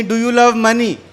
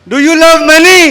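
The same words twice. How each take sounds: First: Said in the usual way. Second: High, very loud rallying shout; shouted crowd call demanding an answer; rousing shout. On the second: Real, not acted. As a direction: belt out the question to fire up the whole room. Rousing a crowd that lacked energy.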